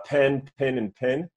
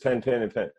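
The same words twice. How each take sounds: First: "pen", "pin", "pin" each with its own clearly different vowel; distinct pen pin pin. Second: "pen", "pin", "pin" all with one identical vowel; all three the same. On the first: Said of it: "three different words". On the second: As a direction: merge "pen", "pin" and "pin" into one sound, like dad. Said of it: "said all three the same way". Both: Shown as a demonstration.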